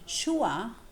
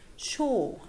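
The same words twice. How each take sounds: First: The vowel glides as a diphthong, ending in schwa. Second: The vowel is a single steady back vowel. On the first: This is the older pronunciation. "Instead of saying sure" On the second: This is how younger speakers say it. "they say sure"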